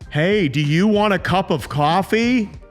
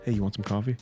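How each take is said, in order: First: It is said loudly and stiffly. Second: It is said in an easy, relaxed voice.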